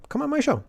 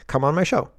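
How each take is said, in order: First: Much higher, coaxing come on my show; high mock plea. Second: Said in the usual way. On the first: Host begging a guest, high mock plea. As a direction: squeak it out like a pleading host.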